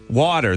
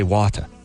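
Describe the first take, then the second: First: It ends with an R sound. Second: It ends in a vowel with no R. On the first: "we say water" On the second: "they say water. ... they just put the A at the end. They don't do the E R"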